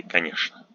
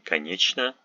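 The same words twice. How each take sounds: First: Конечно said "ka-NYESH-na"; "sh" in place of ч in конечно; correct "sh" pronunciation. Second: Конечно said "ka-NYECH-na"; weird "ch" pronunciation. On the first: Teacher showing what we say, конечно with "sh". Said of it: "We say". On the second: Teacher imitating people who say it weird, конечно with "ch". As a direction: sound the ч in конечно as "ch". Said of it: "they sound a little bit weird". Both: Shown as a demonstration.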